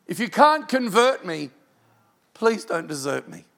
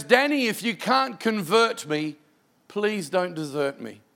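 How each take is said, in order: First: CAN'T pushed louder, then falling away on please don't desert me; urgent plea that fades; pleading repeat. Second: Slow, gentle plea; slow heartfelt pleading. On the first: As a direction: lean on CAN'T and drop off on desert me. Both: Retold or imitated. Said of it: "it breaks your heart".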